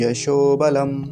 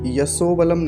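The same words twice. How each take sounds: First: The consonant in yasho is a sh sound. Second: The consonant in yasho is a plain s. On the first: The speaker calls it right. "तालव्य शकार" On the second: The speaker calls it wrong. "ये वाला स नहीं बनना चाहिए"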